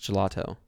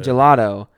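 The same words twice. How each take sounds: First: The middle consonant is a clear T. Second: The middle consonant sounds like a soft D. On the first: The speaker calls it right. "With a T" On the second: The speaker calls it wrong. "if you say gelato, I'm triggered"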